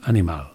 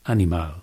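First: All three vowels are said as full vowels. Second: The same.

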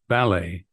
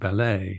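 First: The stress is on the first syllable. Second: The stress is on the second syllable. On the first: This is the American pronunciation. "American seems to favor the trochaic, the dum-dum" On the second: This is the British pronunciation. "British seems to favor the iambic, da-dum"

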